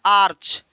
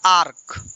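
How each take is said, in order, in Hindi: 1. यह शब्द 'ch' की आवाज़ से खत्म होता है। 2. यह शब्द 'k' की आवाज़ से खत्म होता है। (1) "इसका आप गलत प्रोनाउंसिएशन करते हैं" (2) "इसका राइट प्रोनाउंसिएशन होता है"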